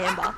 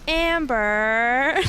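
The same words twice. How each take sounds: First: The name is said with an Australian accent. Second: The name is said with an American accent. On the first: This is how the owner says the name. "instead of like" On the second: This is how others say the name. "they say my name, they go like"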